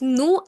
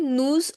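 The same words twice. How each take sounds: First: The final s is silent. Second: The final s is sounded as z. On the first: The next word begins with a consonant. "It is nous and vous" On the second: The next word begins with a vowel. "if the next word begins with a vowel, at that time I'll say nous"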